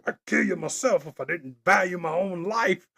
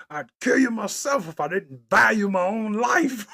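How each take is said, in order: First: Lightly voiced disgusted villain, leaning on "value"; a hint of a scornful movie villain; villain quote again. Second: Laughing, louder quote of a movie villain; half-laughing mock villain line; lightly voiced disgusted villain, breaking into laughter. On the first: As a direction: savour the villain's line. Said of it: "funniest thing". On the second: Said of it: "he was mad at himself".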